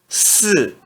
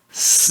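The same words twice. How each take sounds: First: The pitch falls sharply from high. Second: The pitch stays high and level. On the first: "E no quarto tom" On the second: "S I no primeiro tom se pronuncia s"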